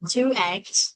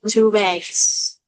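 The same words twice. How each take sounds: First: The two words are said without an inserted sound. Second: A consonant sound links the two words together.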